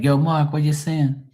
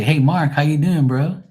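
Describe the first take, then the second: First: Higher-pitched Bermudian street greeting; Bermudian accent. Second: Higher, louder American-style greeting; mock standard American. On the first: Shown as a demonstration. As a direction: call to a friend in Bermudian. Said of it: "They'll be like". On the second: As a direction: mimic a chummy American hello. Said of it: "We don't talk like that here".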